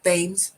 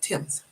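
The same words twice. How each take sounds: First: It begins with a th sound as spelled. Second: It begins with a plain t sound. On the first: This is how the spelling suggests it. The speaker calls it wrong. "looks like Thames" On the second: This is how it is actually said. The speaker calls it right. "It's pronounced Thames"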